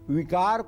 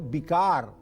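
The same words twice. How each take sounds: First: The word starts with a v sound. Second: The word starts with a b sound.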